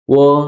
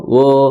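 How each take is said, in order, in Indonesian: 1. Bunyi vokalnya adalah bunyi 'o' bulat. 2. Bunyi vokalnya adalah bunyi 'o' bulat.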